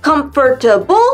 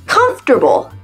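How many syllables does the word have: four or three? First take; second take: four; three. First: The word is said with four syllables. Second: The word is said with three syllables. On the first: The speaker calls it wrong. "Quatre? ... c'est pas comfortable" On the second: The speaker calls it right. "Il y en a trois. ... mais comfortable"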